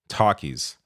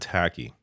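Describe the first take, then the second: First: The first vowel sounds like 'talk'. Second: The first vowel sounds like 'tack'. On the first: "is there an L in this word?" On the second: "here in Canada, it is a tacky"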